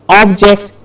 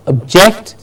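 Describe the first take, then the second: First: OBject, open first vowel; stress on first syllable. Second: ObJECT, as "uhb-JECT"; stress on second syllable. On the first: Teacher contrasting word pairs, front-stressed OBject. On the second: Teacher contrasting word pairs, back-stressed obJECT. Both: Shown as a demonstration. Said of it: "Do you hear the difference?".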